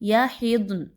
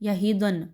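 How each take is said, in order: First: The d has no vowel after it. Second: A short a vowel follows the d. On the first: The speaker calls it right. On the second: The speaker calls it wrong.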